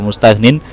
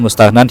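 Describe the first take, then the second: First: The vowel after the n is 'i'. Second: The vowel after the n is 'a'. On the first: "iku ba'idun iku terlalu jauh dari pemahaman yang mudah" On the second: "dibaca fathah nunnya"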